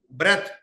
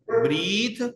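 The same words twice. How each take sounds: First: "breath" with a short e. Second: Slow "breathe" with stretched ee; breathe, long ee. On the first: Teacher giving the noun form, short-e breath. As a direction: cut the vowel short in breath. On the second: Teacher contrasting verb with noun, long-ee breathe. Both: Shown as a demonstration. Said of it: "इनकी pronunciation में भी फर्क है".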